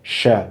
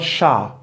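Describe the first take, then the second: First: The final vowel is a weak, reduced sound. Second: The final vowel is a full 'a' sound. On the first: The speaker calls it right. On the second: The speaker calls it wrong. "not sha"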